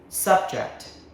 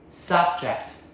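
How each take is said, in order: First: The stress is on the first syllable. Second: The same.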